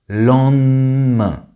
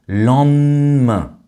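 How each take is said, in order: First: The middle syllable is said with an n sound. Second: The middle syllable is said with an n sound.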